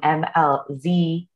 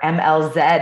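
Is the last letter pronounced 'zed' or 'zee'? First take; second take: zee; zed. First: The final letter is said the American way, 'zee'. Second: The final letter is said the Canadian way, 'zed'.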